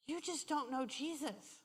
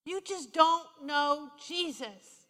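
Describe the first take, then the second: First: Very soft, tender retold counsel; gentle first telling. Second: "don't know Jesus" drawn out slowly with weight; slow emphatic repeat. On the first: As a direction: say it quietly, as comfort. Gently counsels the crying woman. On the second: Retold or imitated. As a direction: stretch and press each word of "don't know Jesus".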